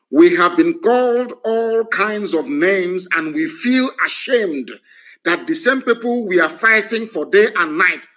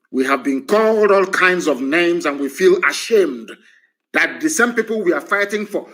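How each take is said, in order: First: Slow, emphatic word-for-word quote; verbatim quote. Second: Said in the usual way. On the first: Retold or imitated. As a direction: read out his exact words slowly and deliberately. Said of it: "I'm going to quote him verbatim".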